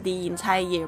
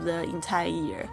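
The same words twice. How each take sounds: First: 'The' takes its before-vowel form and links smoothly. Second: 'The' keeps its plain form and links choppily. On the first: The speaker calls it right. "所以是the entire year" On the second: The speaker calls it wrong. "不是the entire year"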